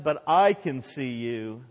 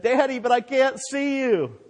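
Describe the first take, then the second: First: Slow, steady fatherly answer, stress on "I"; dad replying. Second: Put-on high-pitched child's protest; protesting boy. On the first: Retold or imitated. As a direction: reassure the boy, leaning on "I". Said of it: "the dad said and replied". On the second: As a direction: plead with daddy like a scared boy. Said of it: "the boy protested and said".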